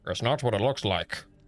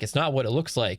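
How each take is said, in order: First: It is said in a very deep voice. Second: It is said in a normal voice.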